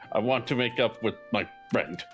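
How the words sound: The voice falls at the end like a statement.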